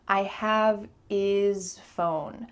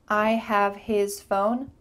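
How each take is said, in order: First: The H sound in 'his' is dropped. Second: The H sound in 'his' is pronounced. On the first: "we're going to cut off the H and just say" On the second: "when you're speaking clearly and maybe a little slowly, you might pronounce the H"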